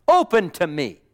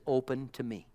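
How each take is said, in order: First: Loud, emphatic call; emphatic preaching. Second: Sweetly. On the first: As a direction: proclaim it loudly from the pulpit. Repeats the quote in preaching voice. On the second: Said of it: "He says it so sweetly". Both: Retold or imitated.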